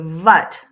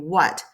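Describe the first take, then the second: First: It is said with an Eastern European accent. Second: It is said with a standard W.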